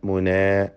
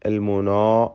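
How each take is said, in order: First: The long vowel is light and thin. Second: The long vowel is heavy and dark. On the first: The speaker calls it right. "അലിഫ് തർക്കീഖിൻ്റെ അലിഫാണ്" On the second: The speaker calls it wrong. "അല്ല"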